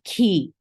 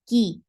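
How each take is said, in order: First: The k is released with a puff of breath. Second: The k is released with no breath flow. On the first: The speaker calls it wrong. "It's not ki. No, it's not" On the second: The speaker calls it right. "there is no flow of breath here"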